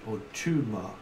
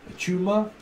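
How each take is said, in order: First: "tumour" dropping in pitch. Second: "tumour" held higher, as a query; questioning "tumour". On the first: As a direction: let "tumour" fall as the alternative. Second take of the word. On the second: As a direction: try "tumour" out on a raised pitch. Tries the word two ways. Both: Shown as a demonstration.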